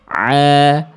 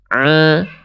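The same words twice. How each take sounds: First: The sound stays out of the nose, sounding clear. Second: The sound passes through the nose, sounding nasal. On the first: The speaker calls it right. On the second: The speaker calls it wrong. "ini adalah contoh ain yang dia masuk ke dalam rongga hidung. Ini adalah contoh bacaan yang salah"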